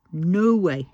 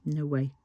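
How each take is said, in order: First: An exasperated louder retort. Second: Said in the usual way. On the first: Real, not acted. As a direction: punch the repeat with real anger. Repeats phrase, second louder.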